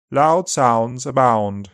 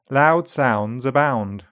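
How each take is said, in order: First: Upper RP accent. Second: Said in the usual way. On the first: Shown as a demonstration. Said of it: "upper R P starts at the back". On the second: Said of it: "G B starts to the front".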